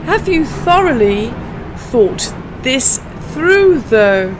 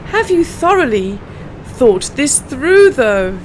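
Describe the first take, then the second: First: Slow, spaced tongue twister, through drawn out; slow it down so learners can follow. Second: Slow repeat, through drawn out. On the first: Teacher slowing the twister for non-natives, slow and careful. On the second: Teacher repeating the twister for learners, slow and clear. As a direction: repeat it slowly once more. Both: Shown as a demonstration. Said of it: "let's try this tongue twister".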